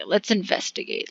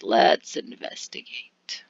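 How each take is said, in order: First: Said in the usual way. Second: Whispered, slow and low; a slow hushed whisper with no voice. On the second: Shown as a demonstration. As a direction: breathe let's investigate as a secret.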